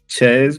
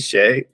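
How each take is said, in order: First: The name is said the anglicized, non-French way. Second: The name is said with its French pronunciation.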